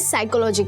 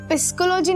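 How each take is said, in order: First: The word begins with an s sound. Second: The word begins with a p sound. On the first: The speaker calls it right. "इसे साइकोलॉजी कहते हैं।" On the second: The speaker calls it wrong. "वो पिस्कोलॉजी नहीं होता है, पी silent होता है।"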